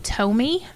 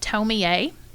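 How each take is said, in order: First: The name is said in an anglicized way. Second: The name is said in a Japanese way.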